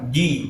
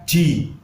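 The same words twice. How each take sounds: First: The j is said without a puff of air. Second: The j is said with a puff of air. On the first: The speaker calls it right. "tidak boleh dengan hembusan angin" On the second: The speaker calls it wrong. "dibaca dengan hembusan angin atau hamas"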